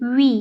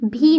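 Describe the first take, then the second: First: It begins with a v sound. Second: It begins with a b sound. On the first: The speaker calls it right. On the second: The speaker calls it wrong.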